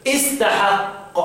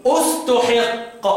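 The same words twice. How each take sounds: First: Very slow "استحق" as istahaqqa; starts with kasra. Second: Very slow "استحق" as ustuhiqqa; starts with damma. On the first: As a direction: begin "استحق" on i, then drawn-out a vowels. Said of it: "ابدأه بكسر الهمزة". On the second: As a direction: begin "استحق" on u, with i on the ha. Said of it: "هبدأ له بالضم". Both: Shown as a demonstration.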